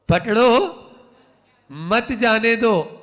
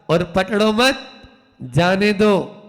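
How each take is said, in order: First: The pause comes right after पकड़ो. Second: The pause comes right after मत.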